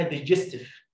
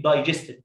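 First: "دايجستيف" wrongly opening with short "de"; imitated mispronunciation. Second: "دايجستيف" opening with a long "die" sound; correct pronunciation. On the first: Teacher quoting a YouTube tutor's mistake, "دايجستيف" with a short first vowel. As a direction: say "دايجستيف" as de-JES-tef. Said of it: "ما اسمهاش كده يا جماعة". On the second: Shown as a demonstration. Teacher giving pupils the proper name, "دايجستيف" said with "die" first. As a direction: say "دايجستيف" as die-JES-tiv. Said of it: "ده اسمه إيه؟".

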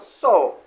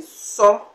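First: "so" stressed, with the pitch falling through the vowel. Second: Said in the usual way. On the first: Shown as a demonstration. Teacher showing learners the word collect, falling stress. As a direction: lean on "so" and let it drop. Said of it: "we place a stress on the so". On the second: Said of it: "then we place a stress".

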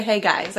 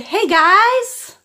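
First: Said in the usual way. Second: "Hey, guys" sung out high and loud; high prompting voice. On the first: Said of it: "He wants to say". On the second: Shown as a demonstration. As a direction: prompt the baby brightly, high.

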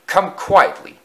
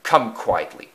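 First: Higher and louder pleading cry; louder crying coaches. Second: Said in the usual way. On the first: Acted. Coaches beg the engine again, higher and louder. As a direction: call it out, high and louder. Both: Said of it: "cried the coaches".

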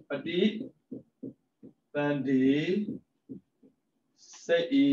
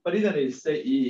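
First: ပဋိ, သန္ဓေ, စိတ်ဤ each said apart with long pauses; syllable by syllable. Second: Said in the usual way. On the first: Shown as a demonstration. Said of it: "split into parts next". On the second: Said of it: "ပဋိ / သန္ဓေ / စိတ်ဤ".

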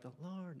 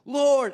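First: Soft, far-off echo of the cry; cave echo. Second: Loud, high, wailing call to God; anguished cry. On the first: The cave echoing David's cry, faint and distant. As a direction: let it sound like it bounced back from the rock. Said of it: "like, the echo of the cave". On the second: David alone in the cave, crying out loud. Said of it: "him saying". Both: Retold or imitated.

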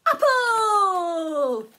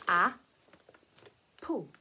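First: High loud puppet cry of Apple; puppet squeal. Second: Apple said low and slow; sounding out apple. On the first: Pretend. Sock puppet crying out the fruit, high and loud. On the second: Shown as a demonstration. Teacher sounding out apple for children. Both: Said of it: "Can you make those sounds?".

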